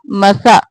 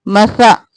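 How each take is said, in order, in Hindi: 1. बीच का व्यंजन एक नरम th ध्वनि है। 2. बीच का व्यंजन एक नरम th ध्वनि है।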